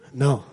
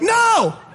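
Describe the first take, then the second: First: It is said calmly and plainly. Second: It is said with loud exasperation.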